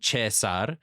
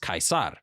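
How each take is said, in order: First: It is said with an Italian pronunciation. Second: It is said with a classical Latin pronunciation. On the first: "Some Italians would call him Cesar" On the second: "Julius would have referred to himself as Caesar"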